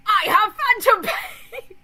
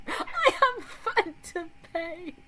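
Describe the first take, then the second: First: High, loud, slow laughing shriek; hammed-up shrieking wail, breaking into laughs; overdramatic phantom pain wail. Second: High, slow posh British drawl of the phrase; hammed-up British accent, high and drawn out; mock British accent. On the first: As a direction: wail it through laughter like a melodramatic gamer. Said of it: "the VR chat people who are like". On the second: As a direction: stretch it out like an overdone Brit. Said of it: "It's so British".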